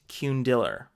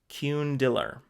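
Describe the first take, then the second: Both takes have the same delivery.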